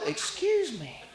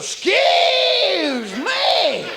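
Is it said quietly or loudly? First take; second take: quietly; loudly. First: It is said small and quietly. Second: It is said big and loudly.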